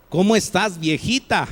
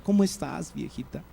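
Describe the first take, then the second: First: After years of quarrels, greet her with mild irritation; weary, worn greeting. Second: Softer, loving ¿Cómo estás, viejita?; tender newlywed greeting. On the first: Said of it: "han pasado los años y han tenido sus conflictos". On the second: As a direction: greet your new wife with soft affection. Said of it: "Están recién casados ... mucho afecto y cariño". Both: Shown as a demonstration.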